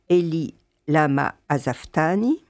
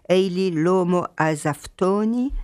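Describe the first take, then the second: First: The main vowels are pronounced as a. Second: The main vowels are pronounced as o.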